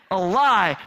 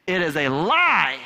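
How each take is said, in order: First: "A lie" repeated, louder and punched; stress on lie. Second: Said in the usual way. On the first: Real, not acted. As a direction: hit "lie" hard as a final word. Insisting on her version.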